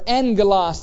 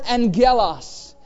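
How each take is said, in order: First: The stress falls on the first syllable. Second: The stress falls on a later syllable.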